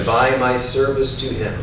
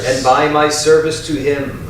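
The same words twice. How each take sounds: First: It is said in a softer, quieter voice. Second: It is said in a strong, loud voice. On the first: "A little softer" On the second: "first in a strong voice out loud"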